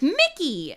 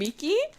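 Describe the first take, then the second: First: The name sounds like the English name Mickey. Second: The name does not sound like English Mickey. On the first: This imitates how the dub says the name. The speaker calls it wrong. "the name pronunciations are not consistent at all. They're like" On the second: This is how the character says his own name. The speaker calls it right. "You mean Miki? He calls himself Miki"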